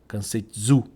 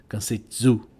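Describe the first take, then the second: The two takes are said the same way.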